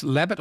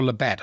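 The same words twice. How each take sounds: First: Labatt said as LAB-it; stress on first syllable. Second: Labatt said as la-BAT; stress on second syllable. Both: Shown as a demonstration. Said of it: "can't remember how it's pronounced".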